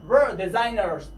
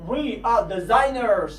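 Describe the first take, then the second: First: Said in the usual way. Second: Slow We are, both words clear; careful full form We are; drawn out We are. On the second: Shown as a demonstration. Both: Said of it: "باید شما اینها رو حتماً بدونید".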